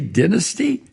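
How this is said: The word is said in a British accent.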